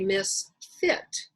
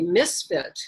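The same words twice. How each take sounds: First: The stress is on the second syllable. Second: The stress is on the first syllable. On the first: The person is badly matched to this particular place. "put the emphasis on the second syllable" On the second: The person does not belong anywhere. "instead of the first"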